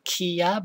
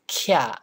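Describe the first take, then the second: First: It is split into two separate syllables. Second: It is blended together into one syllable. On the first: The speaker calls it wrong. "It's not kiya" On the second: The speaker calls it right. "but it's kya. So it's kind of slurred together"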